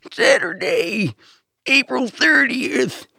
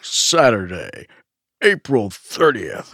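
First: Put-on very high, drawn-out old man announcer; an old man straining at monster truck voice; old man's monster truck voice. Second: Drawn-out monster truck announcer. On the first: Co-host correcting the impression, very old man's monster truck voice. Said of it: "very old man doing monster truck voice". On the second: Acted. Co-host hamming up the holiday date, monster truck voice. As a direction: stretch each word like a truck rally promo. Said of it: "monster truck voice for a second".

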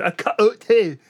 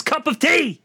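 First: "cup of tea" with the end of "cup" chopped away; ends cut off. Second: "cup of tea" with every consonant sounded, pitched high; exasperated correction, sound the p and v in "cup of tea"; ends fully pronounced. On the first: Mocking fake British accents, ends cut off "cup of tea". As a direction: say "cup of tea" swallowing the consonants, like "cu' o' tea". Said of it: "cut the ends off every single word". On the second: Correcting actors' accent, "cup of tea" said in full. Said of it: "Why do they have to cut the ends off". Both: Shown as a demonstration.

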